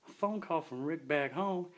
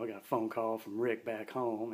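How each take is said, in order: First: Slow disbelieving repeat, pitched higher; incredulous echo. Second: Said in the usual way. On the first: Retold or imitated. [name] hearing Destiny mention Rick, slow and disbelieving. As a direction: echo her words back in disbelief, slowly. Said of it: "And I was like". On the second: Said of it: "And she said".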